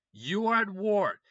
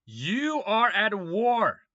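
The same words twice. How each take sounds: First: ARE hit hard, loud and slow, falling at the end; slow emphatic rant. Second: YOU hit hard, loud and slow, falling at the end; slow emphatic rant. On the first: Telling Putin he is at war: slow, loud, stress on "are". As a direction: insist on "are" as if he denies it. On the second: Addressing Putin directly: slow, loud, stress on "You". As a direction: lean on "You" like a jab at Putin. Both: Real, not acted.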